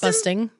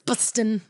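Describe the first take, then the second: First: The word ends with a full ng sound. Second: The word ends with a plain n sound. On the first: "not busting" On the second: "I like that it's bustin'"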